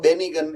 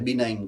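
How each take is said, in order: First: The word is said with a hard g sound. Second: The word is said with no g sound. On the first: The speaker calls it wrong. "First type વાંચશો તો બેનિગન એવું વંચાશે, પણ બેનિગન નથી" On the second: The speaker calls it right. "એને બિનાઇન કહેવાય"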